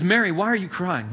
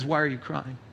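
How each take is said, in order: First: Said in the usual way. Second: Softer, lower, tender question; a quiet, caring voice of Jesus; gentle Jesus. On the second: Shown as a demonstration. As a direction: ask her gently, as comfort. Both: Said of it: "Well, he says".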